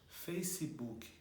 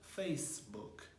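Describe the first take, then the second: First: An extra vowel follows the s sound in face. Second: Face ends on the s sound, without a vowel. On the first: The speaker calls it wrong. "a gente costuma falar Face, Facebook, e não é dessa maneira que se pronuncia corretamente" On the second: The speaker calls it right. "a gente vai falar o C apenas"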